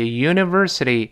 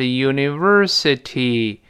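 First: The word is said quickly with a softened t. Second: The word is said slowly with a clear t. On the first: "读快了之后那个city 轻轻浊化就" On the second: "读慢了是"

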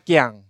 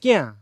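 First: It is said in the Fuzhou Min pronunciation. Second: It is said in the Southern Min pronunciation.

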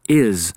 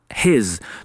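First: The word begins without an h sound. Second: The word begins with an h sound.

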